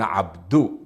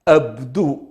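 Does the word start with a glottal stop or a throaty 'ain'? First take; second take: throaty ain; glottal stop. First: It starts with a throaty 'ain' sound. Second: It starts with a plain glottal stop. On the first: This form the Himyarites do not use. "ولا يقولون عبدو" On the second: This is how the Himyarites say it. "يقلبونها همزة فيقولون أبدو"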